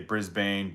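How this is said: Brisbane is said with an American pronunciation. "Americans would say Brisbane"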